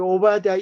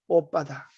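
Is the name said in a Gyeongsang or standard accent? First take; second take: standard; Gyeongsang. First: The name is said in a standard Korean accent. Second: The name is said in a Gyeongsang accent.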